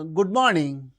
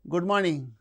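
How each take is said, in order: First: The greeting sounds neutral and even. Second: The greeting sounds flat and uninterested. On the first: "it's very neutral" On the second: "it is uninterested"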